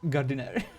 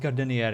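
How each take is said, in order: First: The name is said as Gardiner. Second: The name is said as Gardenier. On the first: The speaker calls it right. "instead of" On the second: The speaker calls it wrong. "I keep mispronouncing his name"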